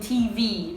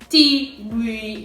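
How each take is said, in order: First: Both letters are said equally strongly. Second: One letter is louder than the other. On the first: The speaker calls it right. "Both of them are said strongly" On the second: The speaker calls it wrong. "there's no quiet and loud"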